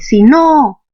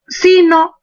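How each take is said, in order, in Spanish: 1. El acento cae en no. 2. El acento cae en si. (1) "mayor fuerza estaría en el no" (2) "la mayor fuerza no está en el no, sino aquí está la fuerza, en sí"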